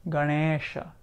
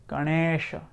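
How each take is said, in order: The two takes are said the same way.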